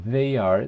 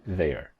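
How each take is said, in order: First: "they are" as two distinct words; uncontracted "they are"; full form. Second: "their" as one syllable, lower; one-word contraction "their"; contracted form. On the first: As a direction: keep "they" and "are" apart. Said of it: "en vez de decir". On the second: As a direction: run "they are" into "their". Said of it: "decían". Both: Shown as a demonstration.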